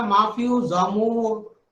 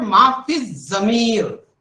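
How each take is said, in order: First: "जामूर" with long aa and oo; someone's mispronunciation. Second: "माफी जमीर" loud and drawn out, long ee in "जमीर"; correct pronunciation. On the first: Retold or imitated. Teacher quoting someone's mistake, "जामूर" mispronounced with oo. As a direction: say "माफी जामूर", oo replacing the ee of "जमीर". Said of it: "किसी ने कहा". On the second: Shown as a demonstration. Teacher modelling the term for teachers, "माफी जमीर" slow, emphatic. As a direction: slowly stretch "जमीर" with a held z and long ee. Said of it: "किसी ने कहा माफी जामूर".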